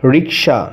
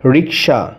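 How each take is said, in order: First: The k sound comes before the s sound. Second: The k sound comes before the s sound.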